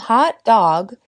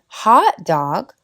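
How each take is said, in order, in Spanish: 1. El acento cae en la segunda palabra. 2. El acento cae en la primera palabra. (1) "es un perro con calor" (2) "con el stress en la primera palabra es una comida"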